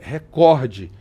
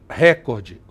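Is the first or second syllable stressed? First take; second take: second; first. First: The stress is on the second syllable. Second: The stress is on the first syllable. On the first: The speaker calls it right. "O certo é recorde" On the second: The speaker calls it wrong. "a gente não fala"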